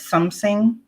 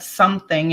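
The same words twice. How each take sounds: First: It is said in a German accent. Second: It is said in a plain English accent.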